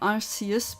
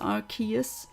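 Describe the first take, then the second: First: The C is pronounced as an S sound. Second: The C is not pronounced as an S. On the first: The speaker calls it wrong. "keep saying Arceus, but that is false ... I pronounce the C as a S" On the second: The speaker calls it right. "Apparently, it's Arceus"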